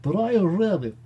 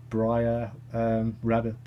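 First: High, loud comic swoop on the name; playful, exaggerated high-pitched call; silly put-on voice. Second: Said in the usual way. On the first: Repeats the name in funny voice.

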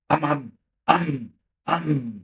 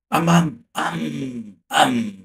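First: Slow drawn-out boom sounds; drawn-out imitated explosions; artillery booms. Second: Rocket blasts. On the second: Retold or imitated. Rockets fired, imitated booms.

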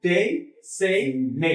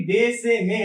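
First: ডে, সে, মে ending in a gliding 'ei', like day, say, may; English 'ei' glide. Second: ডে, সে, মে with a short plain Bangla 'e', no glide; Bangla-style vowel. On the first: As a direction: draw ডে, সে, মে out into English 'ey'. (ডে, সে, মে ইংরেজি 'এই' টান দিয়ে, ডেই-সেই-মেই) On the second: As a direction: say ডে, সে, মে the Bangla way, vowel cut without a 'y' ending. (ডে, সে, মে বাংলার মতো সোজা 'এ' দিয়ে) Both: Shown as a demonstration. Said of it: "English উচ্চারণগুলো হওয়া উচিত".

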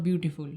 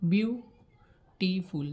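First: Said in the usual way. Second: beautiful very slowly, split as বিউ-টি-ফুল; broken into syllables. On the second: Shown as a demonstration. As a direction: pause between each syllable of beautiful. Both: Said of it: "ভেঙে ভেঙে উচ্চারণ করতে হচ্ছে".

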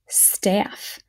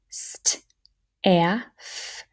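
First: Said in the usual way. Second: St, a, f as separate letter sounds; sounded out. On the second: Shown as a demonstration. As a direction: sound out st, a, f with pauses between. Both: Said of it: "let's fingerspell".

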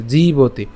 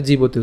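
First: জীবতি with a long, held ee in জী; lengthened জী in জীবতি; long vowel. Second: জীবতি with a short, quick i in the first syllable; brief ji at the start of জীবতি; short vowel. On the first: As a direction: stretch the first syllable of জীবতি, jee-boti. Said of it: "উচ্চারণটা দীর্ঘ করছি". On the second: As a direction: say জীবতি without stretching জী. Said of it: "যদি রসিকার থাকতো". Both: Shown as a demonstration.

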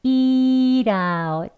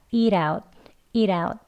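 First: "eat out" stretched slowly as "ee-rout"; slow linking demonstration of "eat out"; linked flap. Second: "eat out" quicker, as "ee-rout"; brisk linked model of "eat out"; linked flap. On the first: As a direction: draw out the ee, then flap t into "out". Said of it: "연음이 되는데요". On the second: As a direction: run "eat out" together with a tapped r-like t. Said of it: "리을에 더 가까운 발음처럼". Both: Shown as a demonstration.

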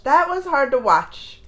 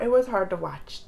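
First: "That was hard to watch" slowed, leaning on "That"; slow emphasis. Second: Said in the usual way. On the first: Real, not acted. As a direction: hit "That" and drag the line out.

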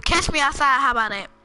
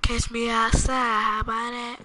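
First: Higher, louder punchy quote; quick, emphatic mimicry; imitated catchphrase. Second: Imitated catchphrase. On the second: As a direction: draw the catchphrase out lazily. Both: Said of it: "he said".

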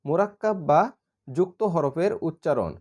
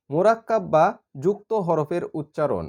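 Both takes have the same delivery.

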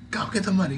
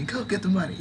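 First: Lightly voiced giant spider, pitched up, urging; cheery spider voice. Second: Higher spider voice, dissolving into giggles; laughing through it. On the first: Spider landlady cheering the player on, higher and playful. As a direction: push them out the door, lightly playful. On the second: Acted. Spider landlady cheering the player on, giggling. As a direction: repeat it and crack up.

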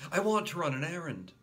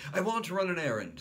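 First: Put-on repeated child's request; eager little boy repeat. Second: Put-on high fast childish demand; high child's request; eager little boy. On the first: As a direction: insist again. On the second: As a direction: announce it eagerly. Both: A narrator's reading.

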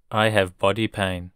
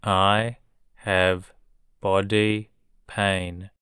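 First: Said in the usual way. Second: I have, body pain slowly, in two chunks; slow it down for learners; slow model. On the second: Shown as a demonstration. Teacher modelling a sentence for learners, slowly. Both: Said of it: "teacher drilling vocabulary".

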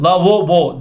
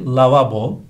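First: LAVABO as "lavobo"; wrong pronunciation. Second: LAVABO with two a sounds; correct pronunciation. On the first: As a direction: say lavabo with o in the middle. (lavabo yanlış, "lavobo") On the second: (lavabo doğru, a ile) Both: Shown as a demonstration. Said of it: "değil".

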